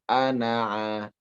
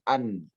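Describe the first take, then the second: First: It ends with a short final a vowel. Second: The final vowel is dropped, ending on n. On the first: The speaker calls it right. "tapi ana'a" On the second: The speaker calls it wrong. "Bukan dimatikan, bukan an"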